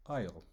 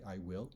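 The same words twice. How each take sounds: First: I'LL run together as one syllable; contracted form. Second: Said in the usual way. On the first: Shown as a demonstration. Teacher showing how English speakers really say it, contracted I'LL. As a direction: say "I'll" as a single short word. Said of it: "we'll say "I'll". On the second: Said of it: "we don't say "I will".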